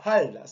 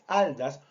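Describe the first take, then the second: First: The word begins with a breathy h sound. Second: The word begins directly with the vowel.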